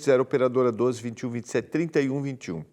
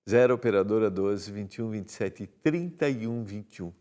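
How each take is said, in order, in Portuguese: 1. O número é lido em ritmo mais rápido. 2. O número é lido em ritmo mais lento.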